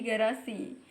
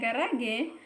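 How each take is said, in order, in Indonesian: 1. Kata ini diakhiri dengan bunyi i. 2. Kata ini diakhiri dengan bunyi mirip e. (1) "berubah menjadi garasi" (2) "Yang awalnya garage"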